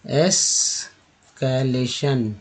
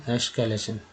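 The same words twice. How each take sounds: First: escalation stretched slowly, शन clear; slow syllable demo. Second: Said in the usual way. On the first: Shown as a demonstration. Teacher slowly modelling escalation. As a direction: draw out escalation for learners. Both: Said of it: "T N को बोलते हैं सन".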